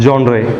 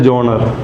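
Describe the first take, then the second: First: It starts with 'jon' and ends in 'ray'. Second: It starts with 'jon' and ends in a short 'ruh'. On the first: This is how it should be pronounced. "पर pronounce कैसे करना है?" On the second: Some people say it this way. "कुछ लोग बोलते हैं जॉनर"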